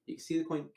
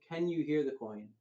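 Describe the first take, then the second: First: "You can see the coin" stated, higher pitch on "see"; told, not asked. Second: "Can you hear the coin" with "Can" stressed; emphasized question. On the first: Magician setting up the question for the spectator, as a statement. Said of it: "I tell him". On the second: Magician asking the spectator who leans in, question emphasized. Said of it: "I put the emphasis on that". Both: Shown as a demonstration.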